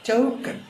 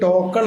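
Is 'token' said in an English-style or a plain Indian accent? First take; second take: English-style; Indian. First: It is said in an imitated English accent. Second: It is said in a plain Indian accent. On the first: "അവർ പറയാം ചൗക്കൻ ചൗക്കൻ" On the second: "ബാങ്കിൽ ടോക്കൺ എന്നാണോ പറയുക? അല്ല"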